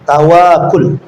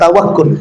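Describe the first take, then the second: First: The vowel after the w is long. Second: The vowel after the w is short. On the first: "wawunya panjang" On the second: "bukan tawakul"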